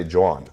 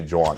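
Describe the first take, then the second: First: Jawn said jɔn, nasal Philly vowel; Philly slang. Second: Jawn said chɔn, quick and clipped; Philly slang. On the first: Telling cohost about Philly slang, Jawn. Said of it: "people from Philly say". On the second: Repeating the Philly word for cohost, Jawn. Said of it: "but they say". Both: Shown as a demonstration.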